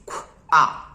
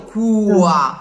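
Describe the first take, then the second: First: The consonant is an airy puff without oo. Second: A distinct oo vowel follows the consonant. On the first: The speaker calls it right. "It's qua" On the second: The speaker calls it wrong. "And there's no U, there's no real U. It's not a qua"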